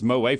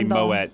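First: The name is said in the non-British way. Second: The name is said in the British way. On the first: The speaker calls it right. "It's Moët for sure" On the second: The speaker calls it wrong. "It's very English to say Moët"

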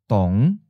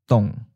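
First: The pitch starts low and rises. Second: The pitch starts mid and falls. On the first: "Fifth tone, low rising" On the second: "Third tone, mid falling"

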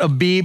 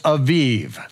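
First: The word is said with B sounds. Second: The word is said with V sounds. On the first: The speaker calls it wrong. "It's not Abib" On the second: The speaker calls it right. "it's Aviv"

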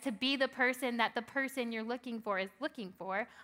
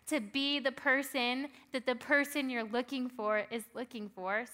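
First: It is said at a normal pace. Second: It is said more slowly.

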